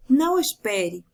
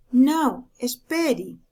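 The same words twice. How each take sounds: First: Said in the usual way. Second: "Não" louder and set apart, pause, then "espere" falling; comma pause after não. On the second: Shown as a demonstration. Teacher shows the comma: stressed "Não", pause, "espere". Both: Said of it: "A segunda".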